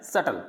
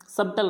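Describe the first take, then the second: First: सटल as "sut-al", no B; silent B. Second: सबटल with B sounded, "sub-tal"; wrong pronunciation. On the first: Teacher gives students the answer, सटल with B left out. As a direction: go straight to T in सटल. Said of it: "क्या बोलना है". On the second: Teacher shows students the mistake, सबटल as sub-tal. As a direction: close the lips for B in सबटल. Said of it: "सबटल नहीं बोलना है". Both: Shown as a demonstration.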